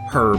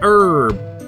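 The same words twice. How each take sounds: First: It is said with a British accent. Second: It is said with an American accent.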